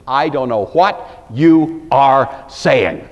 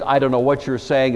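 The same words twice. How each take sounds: First: "I don't know what you are saying", each word hit hard and apart; slow, forceful stress on every word of "I don't know what you are saying"; emphasis on every word. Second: Said in the usual way. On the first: Shown as a demonstration. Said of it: "every word has emphasis".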